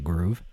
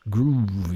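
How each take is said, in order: First: The word is said plainly and flatly. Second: The word is drawn out with funky flair. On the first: The speaker calls it wrong. "You can't just say groove" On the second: The speaker calls it right. "You got to say it that way"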